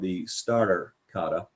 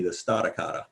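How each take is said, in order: First: It is said in a neutral accent. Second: It is said in a Boston accent.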